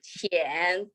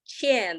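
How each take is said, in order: First: The pitch dips low, then rises. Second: The pitch falls sharply from high to low. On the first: It means shallow. "third tone" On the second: It means owe. "the fourth tone"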